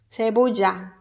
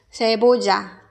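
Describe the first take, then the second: First: The double L sounds like a j. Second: The double L sounds like a j.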